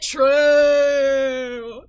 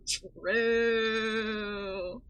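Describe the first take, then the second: First: Drawn-out bellowed True!, much louder and higher; hammed-up shouted accent. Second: True! drawn out in a put-on accent, rising at the end; a long, lilting mock-accent True!; mock accent, softer. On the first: Streamer mocking the patient's accent, with a drawn-out bellowed True!. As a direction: belt out True! in a mock accent, long and loud. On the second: Streamer mocking the patient's accent, with a lilting drawn-out True!. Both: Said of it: "The only accent she deserves".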